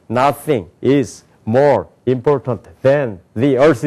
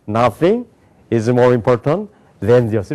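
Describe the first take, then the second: First: "Nothing is more important than the earth" slowly, each word apart; seven separate words, no linking. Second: "Nothing" then "is more important than the earth" linked in one flow; linked chunks. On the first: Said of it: "우리는 일곱 단어로". (일곱 단어로 끊어 읽기) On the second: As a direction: link the words like a native. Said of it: "미국 사람도 어떻게". (연음으로 이어 읽기) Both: Shown as a demonstration.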